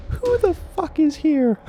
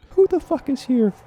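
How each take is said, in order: First: Very high, slow, loud demand; aggressive cop bark. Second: Aggressive cop bark. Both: Acted. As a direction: grill them like a hothead cop. Cop barks at group.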